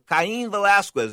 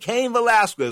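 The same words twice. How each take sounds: First: The name is pronounced with Spanish sounds. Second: The name is pronounced with English sounds.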